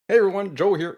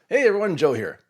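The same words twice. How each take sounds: First: It is said in a put-on, unnatural voice. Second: It is said in the speaker's natural voice. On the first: The speaker calls it wrong. "Nope, wrong voice" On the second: The speaker calls it right. "real voice"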